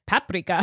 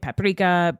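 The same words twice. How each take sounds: First: It is said with a Hungarian pronunciation. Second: It is said with an American pronunciation. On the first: The speaker calls it right. "I have a Hungarian friend who's like" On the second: The speaker calls it wrong. "I know I'm saying that wrong"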